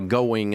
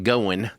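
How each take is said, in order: First: It is said in a neutral broadcast accent. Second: It is said in a Kentucky country accent. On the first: This is the pronunciation learned from the voice coach. The speaker calls it right. "I had to learn how to say" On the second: This is the original home-region pronunciation. The speaker calls it wrong. "instead of"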